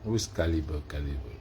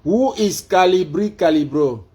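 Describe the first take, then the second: First: Low-pitched, soft question; subdued, falling query; low aside. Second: High, loud question to a device; raised voice command; calling out. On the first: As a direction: say it down low, as if to oneself. Same query said low to self. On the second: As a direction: project every word at the assistant. Loud take of the query. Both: Real, not acted.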